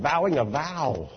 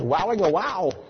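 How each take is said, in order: First: The words begin with a v sound. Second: The words begin with a w sound. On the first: The speaker calls it right. "she meant vowing a vow" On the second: The speaker calls it wrong. "In her German pronunciation"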